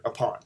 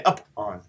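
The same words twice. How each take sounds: First: "upon" with "on" hit harder; quick light first syllable, weighted "on" in "upon"; stress on ON. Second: "up on" with "up" hit hard, "on" weaker; stress on UP. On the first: Teacher demonstrating the natural iamb to class, "upon" stressed on "on". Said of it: "on is being hit harder". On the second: Teacher showing class the wrong way, "up on" stressed on "up". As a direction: split "up on" and punch the first syllable. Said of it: "I don't say up on". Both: Shown as a demonstration.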